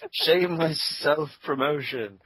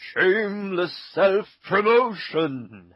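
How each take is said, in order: First: It is said in a plain, ordinary voice. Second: It is said in a grand, theatrical voice. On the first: "I can never say that right the first time" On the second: "in epic voice"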